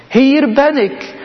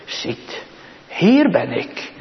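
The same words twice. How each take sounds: First: Higher, slow, ringing call of the Lord. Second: Soft, slow, gentle words of the Lord; softly voiced Lord. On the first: Acted. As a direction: call out as God answering from on high. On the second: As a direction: say it softly and slowly, as the Lord calling. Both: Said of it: "En hij zegt het".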